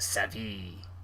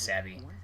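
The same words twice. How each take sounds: First: The name is drawn out with heavy, exotic-sounding emphasis. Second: The name is said plainly, with no added emphasis. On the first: The name is made to sound more exotic. "I put emphasis ... Make it sound more exotic" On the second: This is how the name is normally said. "I believe it's just Savvy"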